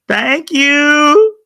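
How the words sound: It is said smiling, with the pitch going up. "the smile makes your voice go up"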